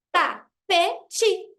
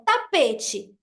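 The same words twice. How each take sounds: First: "Tapete" broken into ta-pe-te, a gap after each piece; syllable by syllable. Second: Said in the usual way. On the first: Shown as a demonstration. Teacher showing three pieces of a word, "Tapete" split into syllables. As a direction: say "Tapete" in three separate beats. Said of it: "quebrar essa palavra em pedaços menores". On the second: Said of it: "você pode quebrar essa palavra".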